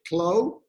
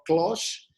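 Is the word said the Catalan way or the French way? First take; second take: French; Catalan. First: The word is said with a French pronunciation. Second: The word is said with a Catalan pronunciation. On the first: "the French would pronounce it Clos" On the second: "like a Catalan would say"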